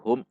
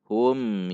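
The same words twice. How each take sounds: First: The syllable is cut off with a jerk. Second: The syllable is said plainly, flowing on. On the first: The speaker calls it wrong. "hum dihentak" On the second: The speaker calls it right. "Namun hum yu"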